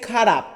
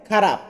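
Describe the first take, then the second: The two takes are said the same way.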